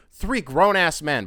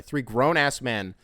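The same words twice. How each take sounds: First: Slow, louder, each word stressed; drawn-out indignant emphasis; emphatic. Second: Said in the usual way. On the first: Real, not acted. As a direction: lean hard on three grown-ass men. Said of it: "by the way".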